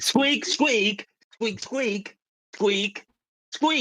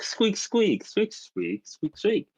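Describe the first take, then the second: First: The squeaking sounds angrier and more intense. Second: The squeaking sounds calmer, only starting to build.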